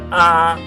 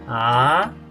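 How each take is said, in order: First: The pitch stays high and level throughout. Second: The pitch rises up high. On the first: "No hay variación del tono. Empieza en alto y lo sostengo" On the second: "El segundo tono es un tono ascendente. Sube alto"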